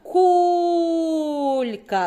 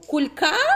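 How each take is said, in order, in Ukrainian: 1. Наголос на першому складі. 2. Наголос на другому складі. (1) "Ми кажемо кулька" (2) "А що на другому?"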